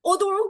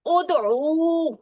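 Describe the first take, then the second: First: Said in the usual way. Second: ادعو with the final "oo" held long; long final vowel. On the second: Shown as a demonstration. Teacher showing the class where the oo sounds, ادعو drawn out at the end. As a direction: stretch the last "oo" of ادعو, slowly. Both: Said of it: "یہاں او کی آواز آئے گی".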